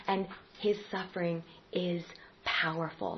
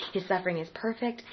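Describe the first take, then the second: First: "and his suffering is powerful" whispered softly; a soft whisper to land the point; whispered close. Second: Said in the usual way. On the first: Shown as a demonstration. Closing three-part list.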